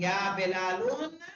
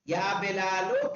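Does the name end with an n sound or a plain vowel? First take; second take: n sound; plain vowel. First: The name ends with an added n sound. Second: The name ends on a plain vowel sound. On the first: The speaker calls it wrong. "लेकिन या बिलालुन नहीं कहेंगे" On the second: The speaker calls it right. "या बिलालो कहेंगे"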